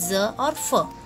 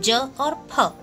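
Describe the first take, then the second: First: The consonants are z and f. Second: The consonants are j and aspirated p. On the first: "यदि नुक्ता लग जाए तो उनका उच्चारण" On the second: "बिना नुक्ता के यदि हम इनका उच्चारण करेंगे तो हम पढ़ते हैं"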